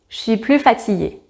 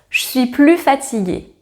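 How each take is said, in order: First: The word 'ne' is dropped entirely. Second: The same.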